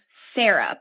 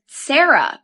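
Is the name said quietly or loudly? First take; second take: quietly; loudly. First: The name is said quietly. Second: The name is said more loudly.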